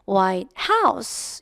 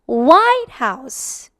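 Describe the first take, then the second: First: The stress is on the word House. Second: The stress is on the word White.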